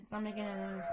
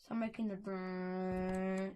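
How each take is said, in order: First: Said in the usual way. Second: Rolled brrrr sound, drawn out slowly; brrrr noise. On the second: Shown as a demonstration.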